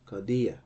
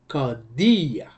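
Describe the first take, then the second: First: The pitch does not rise on the last syllable. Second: The pitch rises on the last syllable. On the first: The speaker calls it wrong. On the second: The speaker calls it right.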